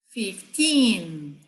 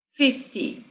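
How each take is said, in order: First: "fifteen" with long, stressed second syllable; stress on TEEN. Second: "fifty" short, strong first syllable, falling -ty; stress on FIF. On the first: Teacher contrasting side by side, stress on TEEN. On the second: Teacher contrasting side by side, stress on FIF. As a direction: hit the FIF of "fifty", drop the -ty. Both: Shown as a demonstration. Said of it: "lado a lado".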